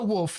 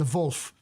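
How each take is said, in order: First: The word begins with an English W sound. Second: The word begins with a German-style V sound. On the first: The speaker calls it wrong. "Not the wolf" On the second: The speaker calls it right. "the V U L F, the Wolf"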